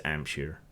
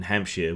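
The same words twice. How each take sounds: First: "Ampshire" with no H, opening straight on the vowel; dropped H. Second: Said in the usual way. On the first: Shown as a demonstration. Demonstrating the Hampshire accent to viewers, H dropped. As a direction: say "Ampshire" the local way, H silent at the start. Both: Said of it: "we drop our A's".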